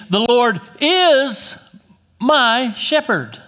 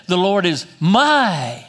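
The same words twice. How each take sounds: First: "is" drawn out slow and loud; stress on IS. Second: "my" stretched long and loud; stress on MY. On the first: Preacher reads David's psalm declaratively, stress on "is". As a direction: land hard on "is", raised and stretched. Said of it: "The emphasis on is". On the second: Preacher tries David's line another way, stress on "my". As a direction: lean hard on "my", drawing it out. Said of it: "What if he said". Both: Shown as a demonstration.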